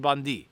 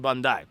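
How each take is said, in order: First: The name ends with an 'ee' sound. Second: The name ends with an 'eye' sound. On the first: The speaker calls it wrong. "Bondi is not correct" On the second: The speaker calls it right. "You have to say Bandai"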